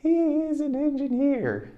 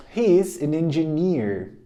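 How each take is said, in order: First: Much higher, slow echo voice; high slow drill. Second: Slow, evenly paced repetition; slow drill. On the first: Teacher drills the line in a high slow voice. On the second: Teacher repeats the line slowly at normal pitch. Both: Shown as a demonstration. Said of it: "Repeat after me".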